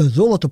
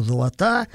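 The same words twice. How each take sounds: First: Золото stressed on the first syllable; золото with initial stress, correcting a slip; corrected stress. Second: Золота stressed on the last syllable; золота with end stress, a slip; misplaced stress. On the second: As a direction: put the stress of золота on the final A. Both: Real, not acted. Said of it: "ударение путаю".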